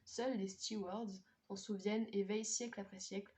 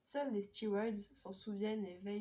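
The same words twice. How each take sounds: First: "stewards" pronounced the French way, with a French r; French-accented "stewards". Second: "stewards" pronounced the English way, STYOO-ardz; English-accented "stewards". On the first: Rereading the blurb after a slip, "stewards" in French pronunciation. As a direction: keep "stewards" French within the sentence. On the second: Reading a French blurb to viewers, "stewards" in an English accent. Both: Real, not acted. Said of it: "pourquoi je dis stewards avec un accent anglais".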